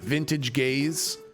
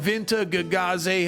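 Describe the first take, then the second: First: The name is said as two plain words. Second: The name is said with extra syllables. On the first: The speaker calls it wrong. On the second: The speaker calls it right.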